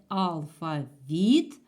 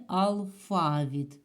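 First: «алфавіт» stressed on ВІТ, loud and drawn out; stress on last syllable. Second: «алфавіт» stressed on ФА, drawn out; stress on middle syllable. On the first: Teacher shows first stress option, «алфавіт» with stress on ВІТ. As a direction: say «алфавіт» slowly, punching the final ВІТ. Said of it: "можна визначати наголос в". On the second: Teacher shows second stress option, «алфавіт» with stress on ФА. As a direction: say «алфавіт» slowly, leaning on the middle ФА. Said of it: "а можна сказати". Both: Shown as a demonstration.

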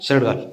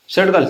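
First: Said in the usual way. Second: Louder, higher repeat with weight on घाल; insistent order. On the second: Real, not acted. Telling the other person firmly to put the shirt on the dog. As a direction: say shirt घाल again firmly, punching घाल. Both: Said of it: "shirt घाला".

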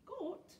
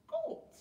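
First: High-pitched puzzled echo; surprised question. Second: Very high, loud squawked question; incredulous outburst. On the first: Pirate chief reacting to goat stew, surprised. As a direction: query the word, taken aback. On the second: Pirate chief appalled by goat stew, incredulous. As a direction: repeat it in loud disbelief. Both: A narrator's reading.

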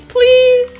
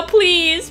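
First: Please pitched high and louder, drawn out; louder pleading please. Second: Said in the usual way. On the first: Real, not acted. Gamer begs the game for solo rounds, high and pleading. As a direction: beg like it's urgent. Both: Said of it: "Solo rounds now".

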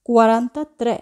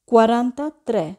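Both takes have the same delivery.

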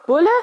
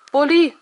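First: "Bulle" said short with u, like the word for cop; "Bulle" with short u, as a puzzled question; mispronounced name. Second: "Bulli" with a clear final i, louder; "Bulli" stressed, the i at the end spelled out; corrected name. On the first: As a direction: clip it to "Bulle", rising in disbelief. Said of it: "Ich hasse es, Bulle genannt zu werden". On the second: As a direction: insist on "Bulli", ending on i. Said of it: "wiederholte ich". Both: A narrator's reading.

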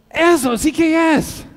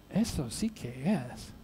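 First: Loud, high, slow cry of relief; exultant customer, every word drawn out; excited exclamation. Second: Very quiet, low, slow repeat; hushed, low, bewildered clerk; baffled echo. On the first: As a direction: burst out as if finally understood. Mexican customer finally finds socks. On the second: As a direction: echo it slowly under your breath, puzzled. American clerk echoes him, puzzled. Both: Acted.

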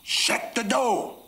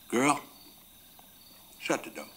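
First: High, drawn-out angry shout; louder angry order. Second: Put-on raised call on GIRL, then a firm order; first firm order. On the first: Acted. Mad father repeating his order to the child, shouting. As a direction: bellow it slowly, pitch leaping right up. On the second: Father telling his little girl to shut the door, firm. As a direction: tell the child firmly, holding back full volume. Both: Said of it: "I said a little louder".

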